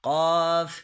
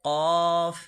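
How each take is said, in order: The two takes are said the same way.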